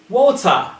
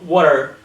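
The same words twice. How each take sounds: First: The T is pronounced as a crisp T. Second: The T is pronounced like a soft D. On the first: The speaker calls it right. "it has to sound like T" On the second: The speaker calls it wrong. "not a D"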